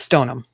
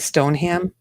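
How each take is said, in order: First: The last syllable is a reduced 'um'. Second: The last syllable is a full 'ham'. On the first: The speaker calls it right. "It's like U M" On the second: The speaker calls it wrong. "you would probably say"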